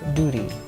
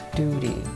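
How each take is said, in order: First: It is said in an American accent. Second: It is said in an American accent.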